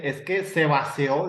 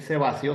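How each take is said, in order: First: Vació dicho como "vaseo", con e y sin la i; mal pronunciado. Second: "vació" dicho "va-sio", con i clara; bien pronunciado. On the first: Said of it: "dice, en vez de decir". ("vació" mal dicho como "vaseo") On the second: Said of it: "en vez de decir". ("vació" dicho bien, "basjo") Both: Shown as a demonstration.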